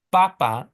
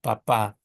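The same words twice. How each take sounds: First: Papa with the first syllable punched, PA-pa; stress on first syllable. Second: Papa with the final syllable stressed, pa-PA; stress on last syllable. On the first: Teacher showing the wrong way, papa stressed on first syllable. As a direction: hit the first pa of papa, louder. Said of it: "it's not". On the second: Teacher correcting to the accented form, papa stressed on last syllable. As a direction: land on the second pa of papa. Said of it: "the accent mark falls on the second to last syllable". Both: Shown as a demonstration.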